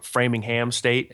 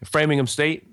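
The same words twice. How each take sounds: First: The name is said slowly with every syllable spelled out. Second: The name is said quickly with reduced syllables.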